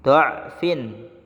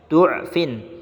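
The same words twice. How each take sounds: First: The first vowel is a rounded 'u' sound. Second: The same.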